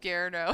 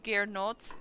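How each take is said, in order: First: The name ends without any t sound. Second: The name ends with a clear t sound. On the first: The speaker calls it wrong. "I keep pronouncing it as Gerno" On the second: The speaker calls it right. "his name is supposed to be Gernot"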